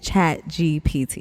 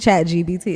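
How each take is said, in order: First: The middle letter is said as P. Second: The middle letter is said as B. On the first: The speaker calls it right. "I have to say that slowly" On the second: The speaker calls it wrong. "I've been calling it Chat G B T"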